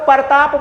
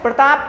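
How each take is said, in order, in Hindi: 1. बीच में एक स्वर डाला जाता है, जिससे व्यंजन-गुच्छ टूट जाता है। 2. व्यंजन-गुच्छ बिना किसी अतिरिक्त स्वर के, कसकर बोला जाता है।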